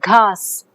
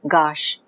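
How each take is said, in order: First: It is aspirated and ends with s. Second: It is unaspirated and ends with sh.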